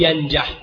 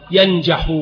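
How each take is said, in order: First: ينجح cut off on a vowelless ḥ; final sukun on ينجح; jussive ending. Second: ينجح ending in a voiced -u; nominative ending. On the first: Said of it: "ويجوز الجزم". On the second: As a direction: say ينجح as yanjaḥu. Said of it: "فيجوز الرفع ويجوز الجزم". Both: Shown as a demonstration.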